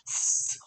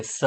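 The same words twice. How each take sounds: First: સ as a long voiceless hiss; just let air out on સ, no vowel; air-only S. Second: સ with a drawn-out voiced vowel; wrong sa sound. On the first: Teacher fixing the mistake, સ as pure air. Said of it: "ખાલી સ હવા કાઢવાની છે". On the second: Teacher showing the common mistake, સ with a long vowel. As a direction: say સ as "saaa". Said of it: "તો એ ખોટું પડશે". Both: Shown as a demonstration.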